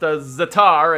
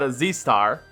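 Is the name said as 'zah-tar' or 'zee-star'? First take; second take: zah-tar; zee-star. First: It is said as 'zah-tar', with no s. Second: It is said as 'zee-star', letter then star. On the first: The speaker calls it right. "apparently that's how it's pronounced" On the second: The speaker calls it wrong. "and not"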